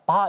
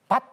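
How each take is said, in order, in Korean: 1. 이 단어는 받침 없이 모음으로 끝나요. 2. 이 단어는 받침으로 끝나요. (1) "바 이렇게 발음하지. 왜냐하면 받침음 발음을 못하기 때문에" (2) "외국인들은요 밭 이러면은 그렇게 발음 못합니다"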